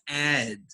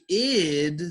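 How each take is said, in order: First: The vowel sounds like 'eh' in bed. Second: The vowel sounds like 'ih' in bid. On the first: The speaker calls it wrong. "we never pronounce this ed" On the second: The speaker calls it right. "We say id sometimes"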